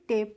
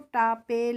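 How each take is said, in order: First: The word ends with a silent final vowel. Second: The word ends with a sounded final vowel. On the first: The speaker calls it right. "टेप पढ़ेंगे" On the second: The speaker calls it wrong. "इस तरीके से नहीं पढ़ेंगे"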